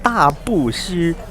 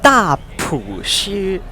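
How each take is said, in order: First: The middle syllable is said as 'bu'. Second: The middle syllable is said as 'pu'. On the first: The speaker calls it wrong. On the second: The speaker calls it right.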